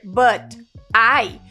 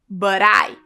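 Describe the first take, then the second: First: The t is a clear, separate t sound. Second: The t is flapped, like a quick r. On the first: "ao invés de você dizer but I" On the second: "você pode falar no inglês americano but I"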